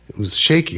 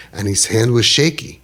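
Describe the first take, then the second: First: "shaky" lifted high with a rising tune; "shaky" pitched higher, rising at the end; stress on shaky. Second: Said in the usual way. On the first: Shown as a demonstration. Repeats word for emphasis.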